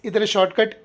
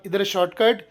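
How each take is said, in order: Both takes have the same delivery.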